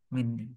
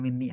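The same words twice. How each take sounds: First: The n sound is held long, doubled. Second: The n sound is short, single. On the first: The speaker calls it right. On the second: The speaker calls it wrong. "Bukan Minni ya"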